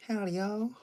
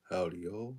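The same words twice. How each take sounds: First: "Howdy, y'all" jumped way up high and loud; mock cowboy greeting squeaked high; squeaky howdy. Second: Said in the usual way. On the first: Shown as a demonstration. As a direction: try a much higher, louder "Howdy, y'all". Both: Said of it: "I don't know how to properly say it".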